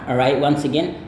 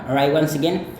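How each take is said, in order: Both takes have the same delivery.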